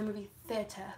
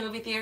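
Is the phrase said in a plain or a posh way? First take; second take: posh; plain. First: The phrase is said in an affected, fancy way. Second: The phrase is said in an ordinary way. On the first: "certain words people make really bougie so they sound smarter" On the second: "Instead of saying going to the movie theater"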